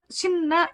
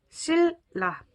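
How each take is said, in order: First: The first syllable ends in an n sound. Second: The first syllable ends in an l sound. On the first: The speaker calls it wrong. "신라 이렇게 발음하는 것이 아니라" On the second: The speaker calls it right. "실라 이렇게 발음을 하죠"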